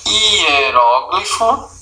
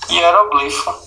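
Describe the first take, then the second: First: Hieróglifo, stress on ró, slowly. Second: Hieroglifo, stress on gli. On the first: Teacher contrasts two stress forms. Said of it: "Existe o". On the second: Teacher corrects the board and repeats the second form. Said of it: "ou você diz hieroglifo". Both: Shown as a demonstration.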